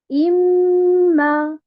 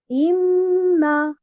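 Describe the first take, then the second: The two takes are said the same way.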